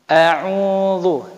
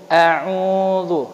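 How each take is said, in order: The two takes are said the same way.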